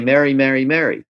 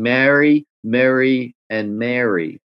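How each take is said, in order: First: All three sound identical, in an LA accent. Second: Three distinct vowels, in a New York accent.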